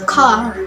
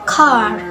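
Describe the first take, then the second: First: It is said in an American accent. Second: The same.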